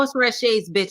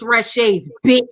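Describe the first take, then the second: First: The final word is said lightly, without emphasis. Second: The final word is said with heavy emphasis. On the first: The speaker calls it wrong. "it's not like" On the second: The speaker calls it right. "you gotta put emphasis on the bitch too"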